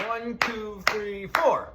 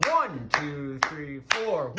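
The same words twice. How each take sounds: First: One, two, three, four with "four" hit harder; stress on four. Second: One, two, three, four with "One" and "four" punched; stress on one and four. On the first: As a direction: lean on "four" at the end of the count. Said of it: "If I put the emphasis or the emphasis on the four". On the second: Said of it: "put the emphasis on the one and the four". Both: Shown as a demonstration.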